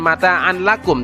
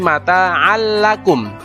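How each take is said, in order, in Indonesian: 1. Bunyi n terdengar jelas sebelum l. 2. Bunyi n melebur sepenuhnya ke dalam l. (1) "bukan mata'an lakum" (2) "tetapi mata'an lakum, masuk ke huruf lam"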